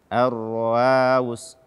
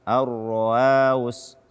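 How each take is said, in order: No difference in how they are said.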